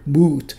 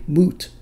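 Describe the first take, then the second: First: The vowel is drawn out long. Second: The vowel has its normal short length.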